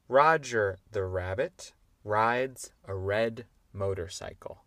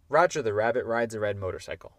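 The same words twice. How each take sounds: First: The sentence is said at a moderate pace. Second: The sentence is said at a very fast pace.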